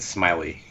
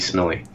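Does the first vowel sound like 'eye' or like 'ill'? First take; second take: eye; ill. First: The first vowel sounds like 'eye'. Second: The first vowel sounds like 'ill'. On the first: "I always said Smiley" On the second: "like like Millie Vanilli"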